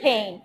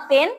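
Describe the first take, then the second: First: "পেন" low and soft, aspirated p; corrected pronunciation. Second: "পেন" with an unaspirated p; wrong pronunciation. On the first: Teacher correcting pupils, "পেন" with a breath after p. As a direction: say "পেন" as phen, puff on the p. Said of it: "it's পেন". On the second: Teacher showing pupils the mistake, "পেন" with a hard p. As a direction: say "পেন" with no puff on the p. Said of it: "Not পেন". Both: Shown as a demonstration.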